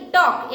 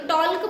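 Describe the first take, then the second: First: "टॉक" with no L, vowel straight into K; silent L. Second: "टॉल्क" with the normally silent L pronounced before K; sounded L. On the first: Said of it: "यहाँ पे एल silent है". ("टॉक" बिना ल की आवाज़ के, एल silent) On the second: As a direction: say "टॉल्क" wrongly, L audible. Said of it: "तो टॉल्क बोलते हैं क्या?". ("टॉल्क" में ल की आवाज़ साफ़ बोलते हुए) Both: Shown as a demonstration.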